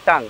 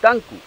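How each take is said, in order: First: The word ends in a plain 'ng' sound. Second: The word ends with an added 'ku' syllable. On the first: The speaker calls it wrong. "টাং, এটা তো ভুল।" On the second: The speaker calls it right. "জিব্বা English হলো টাঙ্কু"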